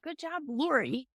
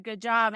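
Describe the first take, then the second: First: Joking. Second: Said in the usual way. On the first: Retold or imitated. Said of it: "I said it in a joking way". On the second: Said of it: "And he just said".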